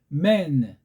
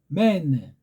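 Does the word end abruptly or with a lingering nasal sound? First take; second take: lingering nasal; lingering nasal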